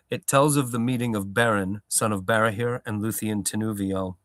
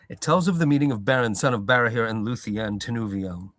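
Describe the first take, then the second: First: The line is read at a slower pace. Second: The line is read at a quicker pace.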